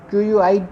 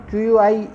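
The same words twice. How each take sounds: The two takes are said the same way.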